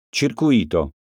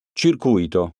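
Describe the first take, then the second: First: Circuito said as circuIto, the i stressed. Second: Circuito said as cirCUito, the u stressed. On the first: Teacher contrasting homographs for pupils, circuIto stressed. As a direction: lean on the I of Circuito. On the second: Teacher contrasting homographs for pupils, cirCUito stressed. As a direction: lean on CU of Circuito. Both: Shown as a demonstration. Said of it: "Eccone alcuni esempi".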